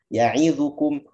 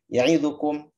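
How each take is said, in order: First: The vowel after the ain is fully voiced. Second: The vowel after the ain is clipped short. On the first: The speaker calls it right. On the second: The speaker calls it wrong.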